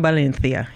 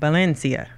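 First: The c sounds like th, a lisp. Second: The c sounds like a plain s. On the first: This is the Spain pronunciation. "he not doing Valencia" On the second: This is the Central American pronunciation. "He doing Valencia"

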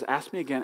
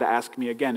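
First: It sounds like a warm invitation. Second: It sounds like a threatening warning.

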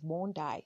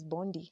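First: The name is said the local way. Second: The name is said as it is spelled. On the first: "it's pronounced as Bondi" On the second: "I would read it as Bondi"

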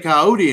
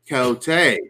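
First: It is said plainly, in ordinary speech. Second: It is said in a fancy, dramatic announcer style.

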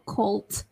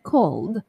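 First: The word ends with a T sound. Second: The word ends with a D sound. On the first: The speaker calls it wrong. "So not called, not T" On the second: The speaker calls it right. "but called, called. L, and then D"

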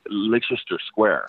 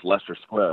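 First: Leicester is said with more syllables, as spelled. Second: Leicester is said with fewer syllables, shortened. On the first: The speaker calls it wrong. "what I was pronouncing as Leicester" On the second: The speaker calls it right. "that's pronounced Leicester Square"

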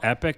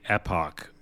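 First: The word sounds like 'epic', ending in -ic. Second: The word sounds like 'epoch', ending in -och. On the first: This is the speaker's own way of saying it. "I call Epic" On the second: This is how the other person says it. "you say Epoch"

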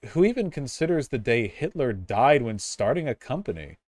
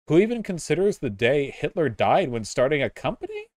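First: The voice falls at the end. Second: The voice rises at the end.

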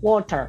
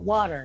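First: It is said in a British accent. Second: It is said in an American accent.

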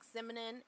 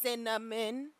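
First: An m sound follows the first vowel. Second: An n sound follows the first vowel. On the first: The speaker says it without thinking. The speaker calls it wrong. "if I don't think about it, I say words like simonin" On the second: The speaker says it while thinking about it. The speaker calls it right. "But if I think about it"

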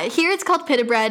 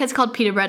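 First: It is said in a British way. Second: It is said in an American way.

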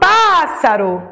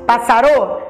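First: The stress is on the first syllable. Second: The stress is on the last syllable. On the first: The speaker calls it right. "eu falo pássaro" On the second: The speaker calls it wrong. "foi a última sílaba mais forte? Passarô? Não"

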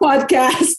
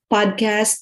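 First: The word is said carefully and clearly enunciated. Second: The word is said loosely and unclearly. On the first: The speaker calls it right. "Mag-enunciate ka" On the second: The speaker calls it wrong. "parang mali pronunciation"

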